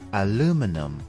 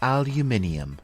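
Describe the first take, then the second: First: Four syllables, ending in a plain 'num' sound. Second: Five syllables, ending in a 'nee-um' sound. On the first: "The American English pronunciation is aluminum" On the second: "And in British English, it is called aluminium"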